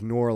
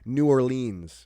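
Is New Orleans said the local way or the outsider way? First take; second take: local; outsider. First: It is said the way locals pronounce it. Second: It is said the way outsiders pronounce it. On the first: The speaker is from the area. The speaker calls it right. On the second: The speaker is not from the area. The speaker calls it wrong. "you could always tell the people who weren't from uh, from there. They're like"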